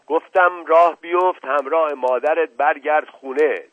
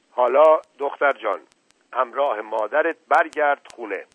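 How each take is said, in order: First: Loud, higher, forceful order; stern command. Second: Said in the usual way. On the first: Acted. Uncle repeating order to disobedient girl, stern command. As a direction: insist with angry authority.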